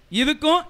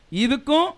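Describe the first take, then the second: No difference in how they are said.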